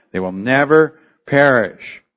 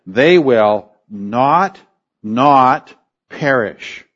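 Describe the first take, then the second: First: Said in the usual way. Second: Slow, weighty, each not stressed: "They will not, not perish"; literal double negative. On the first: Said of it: "In English". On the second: Shown as a demonstration. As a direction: lean hard on both "not" words, slowly. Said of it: "So, literally it is".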